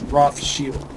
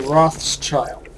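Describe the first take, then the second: First: The name ends with a 'shield' sound. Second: The name ends with a 'child' sound. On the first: The speaker calls it right. "The correct pronunciation is Rothschild. It means red shield" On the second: The speaker calls it wrong. "They always say Rothschild"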